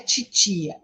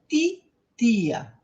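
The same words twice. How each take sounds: First: The t sounds like 'ch', as in 'tchi'. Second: The t is plain, without any 'ch' sound. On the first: The speaker calls it wrong. "Não, não tem esse tch. Não é titia" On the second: The speaker calls it right. "é titia"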